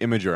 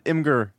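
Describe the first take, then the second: First: It is said like the word imager. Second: It is said as im-gur, following the spelling. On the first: The speaker calls it wrong. "there's no letters that make it sound like that" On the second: The speaker calls it right. "that's how it's spelled out"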